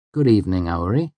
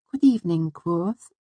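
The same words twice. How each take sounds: First: Said in the usual way. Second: Put-on very high, light girlish voice; Auri. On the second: A narrator's reading. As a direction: greet him in a dainty, high-pitched voice. Auri greets him.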